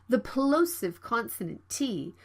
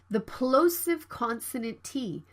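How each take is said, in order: No difference in how they are said.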